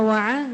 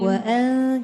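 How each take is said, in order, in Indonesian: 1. Suku kata kedua dimulai dengan bunyi tenggorokan yang dalam. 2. Suku kata kedua dimulai dengan hamzah ringan. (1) "jangan wa'an. Wa'an jadi ain" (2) "Dia hamzah"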